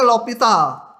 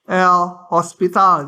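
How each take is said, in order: First: No S sound is pronounced before the T. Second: An S sound is pronounced before the T. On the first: "Tapi bacanya L'Hopital" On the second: "ada yang pakai S bahkan"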